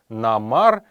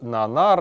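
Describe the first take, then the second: First: The middle consonant is pronounced as m. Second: The middle consonant is pronounced as n. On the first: This is the dialect form. "во множестве калмыцких диалектов ... произносятся ... вместе буквы Н с буквой М" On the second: This is the literary form. "Следует произносить это именно как"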